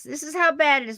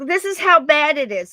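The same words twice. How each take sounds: First: Said in the usual way. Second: Excited call. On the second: Real, not acted. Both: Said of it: "look, look, look".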